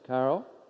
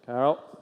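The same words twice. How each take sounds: First: The name is said in a harsh, threatening way. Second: The same.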